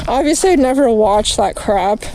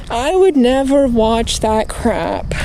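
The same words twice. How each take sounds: First: Said in the usual way. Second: Would drawn out and leaned on, slower; stress on would. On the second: Shown as a demonstration. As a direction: slowly hit the word would.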